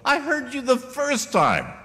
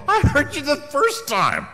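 First: High, slow, drawn-out annoyed reply; mock irritation, stretched out; hammed-up exasperation, pitched way up; exasperated retort. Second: High, loud, slow drawn-out reply; mock irritation, hammed up; loud hammed-up exasperation; exasperated retort. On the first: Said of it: "you go". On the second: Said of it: "I go".

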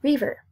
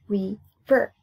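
First: Said in the usual way. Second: RIVER split into ri, ver; syllable by syllable. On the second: Shown as a demonstration. Teacher counting two syllables for pupils, syllable by syllable. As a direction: break "River" in two with a gap. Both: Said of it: "Two syllables".

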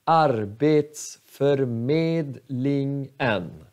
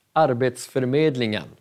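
First: Arbetsförmedlingen slowly, each of six syllables apart. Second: Arbetsförmedlingen said fast as one word; quick plain run. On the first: Teacher breaks the long word down slowly. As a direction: lay out every syllable. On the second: Teacher then says the whole word at normal speed, fast. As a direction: rattle it off at speed. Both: Shown as a demonstration. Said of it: "sex stavelser".

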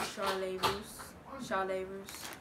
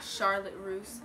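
First: Charlotte pronounced "Shar-lay"; French-style "Shar-lay Russe". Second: Said in the usual way. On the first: Shown as a demonstration. Tries the store's French name, "Shar-lay" pronunciation. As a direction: drop the t, end Charlotte on "lay". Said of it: "it's, like, a French name". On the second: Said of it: "not Charlotte Russe".

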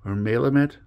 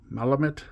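First: Malamut with a long A, MAY-luh-mut; alternative pronunciation. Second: Malamut with a short A, MAL-uh-mut, rising; questioning pronunciation. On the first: Card opener second-guessing a name, trying Malamut as MAY-luh-mut. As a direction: say Malamut starting like "male". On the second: Card opener checking a name, asking Malamut as MAL-uh-mut. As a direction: ask Malamut starting like "pal". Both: Shown as a demonstration. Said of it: "feel like I'm saying that wrong".

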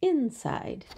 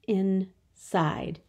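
First: Said in the usual way. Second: "Inside" split with a clear gap; syllable by syllable. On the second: Shown as a demonstration. Teacher showing two syllables, "Inside" broken in two. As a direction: say "Inside" as two separate beats. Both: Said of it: "Two syllables".

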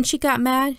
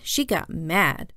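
First: Said in the usual way. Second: "mad" drawn out slowly with weight; slow right down and lean on "mad"; stress on mad. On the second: A narrator's reading. Repeat means really, really mad.

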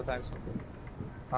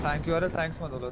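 First: Slow soft whisper of thanks मत बोलो; hushed mock-scolding aside; whispered repeat. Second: Said in the usual way. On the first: Real, not acted. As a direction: breathe the words out, unvoiced and slower. Streamer repeats it, dropping voice.

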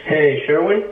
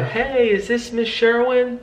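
First: Louder, hard-hitting hello; a blunt phone opener that sounds too loud; loud blunt greeting. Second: Slow, easy warmth on the phone; gentle demo. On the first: Real, not acted. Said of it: "do you hear your intro". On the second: Shown as a demonstration. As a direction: lower their guard with a gentle hello. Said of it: "you wanna lower the guard there".

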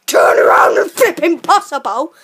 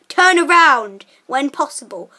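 First: Sat nav voice yelling the prompt, louder; a GPS losing it and shouting; shouted sat nav. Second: Flat robotic sat nav prompt, lightly done. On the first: Bossing his friend as a sat nav, loud mock shout. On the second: Playing sat nav to his friend on the bike, flat machine prompt. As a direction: read it like a car GPS voice. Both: Pretend. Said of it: "I'll be your sat nav".

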